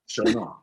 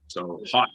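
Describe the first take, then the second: First: The first vowel sounds like the vowel in show. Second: The first vowel sounds like the vowel in hot. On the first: This is the real French pronunciation of the name. The speaker calls it right. "it's really Chaudon or in French" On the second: This is how others on set said the name. The speaker calls it wrong. "everybody's calling like show as in hot"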